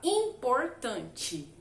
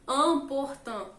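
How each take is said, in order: First: The first nasal vowel sounds like 'in'. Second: The first nasal vowel sounds like 'an'. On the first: The speaker calls it wrong. "a gente quer ler igual se escreve" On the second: The speaker calls it right. "você vai ler como se fosse an"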